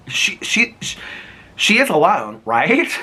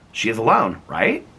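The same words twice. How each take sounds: First: Stammering spooky emphasis. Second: Said in the usual way. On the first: Acted. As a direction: build the suspense. Builds dramatic read.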